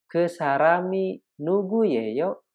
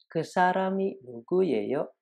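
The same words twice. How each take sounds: First: Kesarami nugu yeyo slow and higher, lifting on nugu and rising at the end; slow teacher question with a clear upturn at yeyo; rising question tune. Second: Kesarami nugu yeyo higher, rising at the end of yeyo at normal speed; quick repeat with a question lift; rising question tune. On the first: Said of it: "Contoh lain". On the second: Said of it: "Intonasi untuk interrogatif harus naik". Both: Shown as a demonstration.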